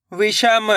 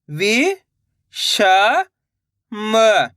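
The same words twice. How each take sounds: First: "विषम" run together as one word; blended word. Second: "वि", "श", "म" each said alone; syllable by syllable. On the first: Teacher reading the finished word to learners, "विषम" blended. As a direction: join the sounds into "विषम", no pauses. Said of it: "direct मात्रा का उच्चारण करके पढ़ेंगे". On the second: Teacher sounding out for beginners, syllable by syllable. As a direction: leave clear pauses in "वि … श … म". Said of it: "direct मात्रा का उच्चारण करके". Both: Shown as a demonstration.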